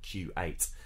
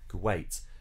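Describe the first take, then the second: First: The stress falls on the first syllable. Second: The stress falls on the second syllable. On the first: The speaker calls it wrong. "not Q8" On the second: The speaker calls it right. "that's got stress on the second syllable. You'd say Kuwait"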